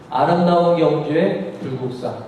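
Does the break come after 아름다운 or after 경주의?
after 경주의. The break comes right after 경주의. Gyeongju is beautiful. "경주가 아름답다는 얘기죠"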